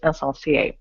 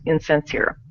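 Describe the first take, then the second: First: The word is pronounced with a French accent. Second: The word is pronounced with an American accent.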